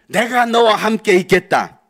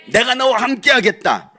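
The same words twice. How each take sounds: First: Loud, slow proclamation of God's word; booming divine promise. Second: Loud declaration of God's word; booming divine promise. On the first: Preacher proclaiming God's promise to the congregation, booming. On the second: Preacher repeating God's promise to the congregation, booming. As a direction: proclaim it again with force. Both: Acted.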